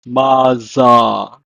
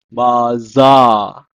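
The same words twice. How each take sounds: First: Maza said ma-za, falling; Hebrew pronunciation. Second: Maza repeated, clear z; Hebrew pronunciation. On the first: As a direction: model Maza clearly. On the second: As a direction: model Maza again. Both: Shown as a demonstration. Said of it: "pronounced in Hebrew as".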